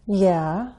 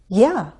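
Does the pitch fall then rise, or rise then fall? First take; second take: fall-rise; rise-fall. First: The pitch falls and then rises. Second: The pitch rises and then falls. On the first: I'll probably agree, but tell me more first. "sounds hesitant because it uses a fall rise" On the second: I'd be happy to. "affirmative but with enthusiasm. It uses a rise-fall"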